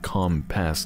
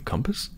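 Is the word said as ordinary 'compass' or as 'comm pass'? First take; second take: comm pass; compass. First: It sounds like two words, comm and pass. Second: It sounds like the ordinary word compass. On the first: It stands for a communication pass. "It's literally like comm pass, like communication pass" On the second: It refers to the usual direction-finding instrument. "you mean compass?"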